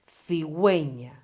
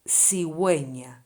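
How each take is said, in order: First: The first consonant is a 'th' sound. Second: The first consonant is an 's' sound. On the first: This is how it is said in Spain. "In Spain, it would be cigüeña" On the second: This is how it is said in the Canary Islands. "we pronounce this letter like we pronounce the letter S"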